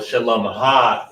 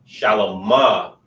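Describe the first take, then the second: First: The ending is a separate syllable with an h. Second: The ending is a plain vowel without h. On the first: It marks possession. "So the possessive is when you say ha at the end" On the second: It is the servile form. "Shalomah is servile"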